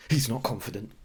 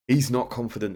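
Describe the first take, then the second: First: Said in the usual way. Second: He's not confident, almost shouted; louder insistent repeat. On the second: Real, not acted. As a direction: push the repeat out harder.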